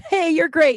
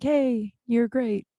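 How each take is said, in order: First: Cheerful call-out with "Hey" said higher and louder; bright enthusiastic compliment. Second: Said in the usual way. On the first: Shown as a demonstration. Podcaster to listeners, hyped "Hey, you're great". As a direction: beam it out to a listener. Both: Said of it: "send me a message that says".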